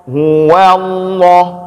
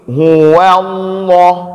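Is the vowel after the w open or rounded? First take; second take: open; open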